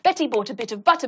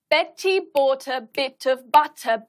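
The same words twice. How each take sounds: First: It is said at the fastest pace. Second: It is said at the slowest pace. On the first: "each time we're going to get faster" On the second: "each time we're going to get faster"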